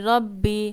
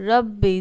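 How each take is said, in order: No difference in how they are said.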